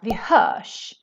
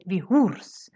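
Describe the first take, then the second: First: The ending of hörs is a sh sound. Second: The ending of hörs is a separate r and s. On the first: The speaker calls it right. "It's pronounced vi hörs" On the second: The speaker calls it wrong. "maybe you want to say vi hörs. But that doesn't happen in Swedish"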